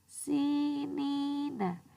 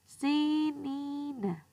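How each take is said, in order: Both takes have the same delivery.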